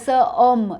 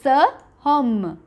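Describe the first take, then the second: First: No h sound is heard before the second word. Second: An h sound is heard before the second word. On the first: The speaker calls it wrong. "It's not a sir om" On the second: The speaker calls it right. "see how it's pronounced is sir hom"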